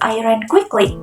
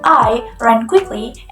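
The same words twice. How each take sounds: First: The word quickly is stressed. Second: The word I is stressed.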